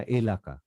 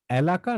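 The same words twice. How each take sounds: First: এলাকা begun with a pure "e"; close vowel pronunciation. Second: এলাকা opened with an "æ" as in cat; open vowel pronunciation. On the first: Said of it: "আগে বলেছিলাম কি এটা". (এলাকা-র শুরুতে খাঁটি "এ" উচ্চারণ) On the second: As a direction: start এলাকা with a wide "æ" sound. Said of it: "এলাকা না এলাকা". (এলাকা-র শুরুতে "অ্যা" উচ্চারণ) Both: Shown as a demonstration.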